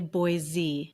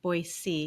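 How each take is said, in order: First: The middle consonant is a buzzing z sound. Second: The middle consonant is a hissing s sound. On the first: The speaker calls it wrong. "never say Boise" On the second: The speaker calls it right. "There is no Z in that word"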